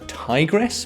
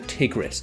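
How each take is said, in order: First: It is said the common Western English way. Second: It is said the way locals near the river say it. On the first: This is how people in the West say it. "over here in the West it's sometimes pronounced" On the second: This is how people living near the river say it. "in Syria and Iraq and those regions of the world, they pronounce it"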